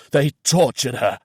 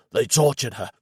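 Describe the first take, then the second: First: "tortured" pushed harder, louder and higher; hoarse, louder repeat. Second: Hoarse and unreal. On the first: Reynolds realising the horror, louder hoarse repeat. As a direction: repeat it, louder, breaking through. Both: A narrator's reading. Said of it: "His voice was hoarse and unreal".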